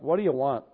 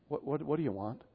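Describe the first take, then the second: First: The question sounds curt and impatient. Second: The question sounds warm and tender. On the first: The asker is annoyed at being bothered. The speaker calls it wrong. "in his voice it wasn't like" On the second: The asker lovingly offers to help. The speaker calls it right. "It was, what can I do for you, dear?"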